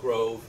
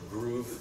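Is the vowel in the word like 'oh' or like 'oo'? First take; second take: oh; oo. First: The vowel is an oh sound. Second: The vowel is a long oo sound. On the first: This is the American pronunciation. "As opposed to the American Grove" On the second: This is the Swedish pronunciation. "Grove is more groove, I think is how it's pronounced"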